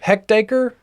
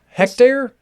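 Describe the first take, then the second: First: The word ends with an added 'acre' sound. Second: The word ends with a plain 'air' sound. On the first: The speaker calls it wrong. "I thought it was a hectaacre" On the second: The speaker calls it right. "Looks like a hectare"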